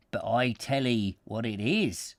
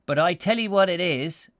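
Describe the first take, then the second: First: Said in the usual way. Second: 'what' punched higher and louder; stress on what. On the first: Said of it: "with the emphasis on, uh, what". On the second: Shown as a demonstration. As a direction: hit the word 'what' hard in the country voice. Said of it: "this with emphasis".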